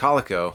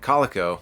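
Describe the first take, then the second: First: The name is said as Calico. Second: The name is said as Calico.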